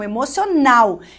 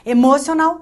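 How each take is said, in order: First: The stress falls on the last syllable. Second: The stress falls on a syllable before the last. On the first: The speaker calls it right. "A última sílaba é a sílaba tônica" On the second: The speaker calls it wrong. "também não mora"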